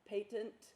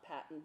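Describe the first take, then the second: First: It is said as the medical term. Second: It is said as the invention word. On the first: The word means open or unobstructed. The speaker calls it right. "and that's how you pronounce it" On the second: The word means a right granted for an invention. The speaker calls it wrong. "It's not patent, like, you know, you get a patent for an invention"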